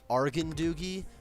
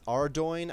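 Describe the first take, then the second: First: The name is said long, with extra added syllables. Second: The name is said short, without extra syllables. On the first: "he used to say it Argandoogie" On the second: "I don't even know if that's actually how you say it either"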